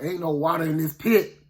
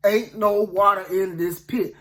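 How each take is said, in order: First: Said in the usual way. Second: "Ain't no water in this pit" slowed, word by word; "Ain't no water in this pit" drawn out deliberately; slow, emphatic repeat. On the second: Acted.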